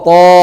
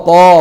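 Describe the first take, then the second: No difference in how they are said.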